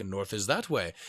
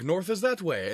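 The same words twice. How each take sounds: First: Lower, softer counter-claim; second guy insisting. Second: Higher, sure-of-himself pointing voice; first guy insisting. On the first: The other local pointing the opposite way, lower and quieter. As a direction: flatly contradict him. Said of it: "And the other one's like". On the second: One local pointing north to tourists, higher and certain. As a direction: insist it's this way. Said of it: "And he's like". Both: Retold or imitated.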